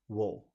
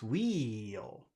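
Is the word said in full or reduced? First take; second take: reduced; full. First: The vowel is reduced, sounding like wool. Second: The vowel is full, sounding like wheel. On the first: The word is unimportant in the sentence. "it gets reduced to wool" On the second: The word is being emphasized. "you want to pronounce it clearly, it's wheel"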